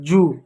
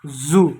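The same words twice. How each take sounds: First: जू as "joo" with hard J; J sound. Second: जू as "zoo" with buzzed Z; Z sound. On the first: Teacher names the louse word with a plain J. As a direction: start जू on a J stop. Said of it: "ये जो जू होता है". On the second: Teacher names the zoo word with a buzzing Z. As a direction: buzz the start of जू. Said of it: "जू means चिड़ियाघर". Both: Shown as a demonstration.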